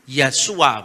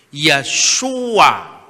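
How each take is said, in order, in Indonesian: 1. Konsonannya adalah bunyi 's' yang ringan. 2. Konsonannya adalah bunyi 'sh' yang berat. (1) "itu menjadi sin ringan" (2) "shin yang berat tadi"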